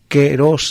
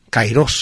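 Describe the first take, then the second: First: The first vowel sounds like 'eh'. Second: The first vowel sounds like 'eye'. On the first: This is how it was said in ancient and modern Greek. "se pronunciaba la A y se pronunciaba E" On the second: This is how it is usually said today by Spanish speakers. "kairos solemos pronunciar nosotros"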